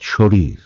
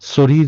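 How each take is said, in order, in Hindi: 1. पहला व्यंजन sh ध्वनि है। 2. पहला व्यंजन साधारण s ध्वनि है। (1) "তখনও আপনি উচ্চারণ করেন এসএইচ" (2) "তখন কি শরীর বলেন? না"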